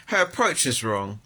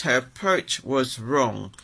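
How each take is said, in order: First: Said in the usual way. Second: "approach" stressed, the line said slowly and deliberately; slow emphatic repeat. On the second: Real, not acted. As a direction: lean hard on "approach", slowing down. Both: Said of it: "That's what it was".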